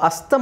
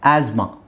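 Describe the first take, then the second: First: A t sound is heard in the middle. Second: No t sound is heard in the middle. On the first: The speaker calls it wrong. "Actually ಅದು ಅಸ್ತಮ ಅಲ್ಲ" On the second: The speaker calls it right. "ಆಸ್ಮಾ ಅಲ್ಲಿ ಟಿ ಎಚ್ silent ಆಗುತ್ತೆ"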